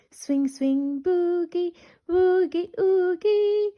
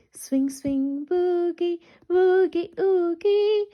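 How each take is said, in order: Both takes have the same delivery.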